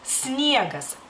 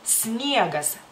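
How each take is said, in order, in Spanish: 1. La palabra empieza directamente con el sonido s. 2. La palabra empieza directamente con el sonido s.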